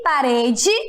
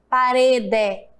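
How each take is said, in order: First: The final vowel sounds like 'ee'. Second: The final vowel sounds like 'eh'. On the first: The speaker calls it right. "o E também tem som de I" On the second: The speaker calls it wrong. "Eu não falo rede, parede"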